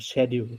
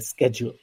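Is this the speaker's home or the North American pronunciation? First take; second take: home; North American. First: It is said with the speaker's home accent. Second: It is said with a North American accent.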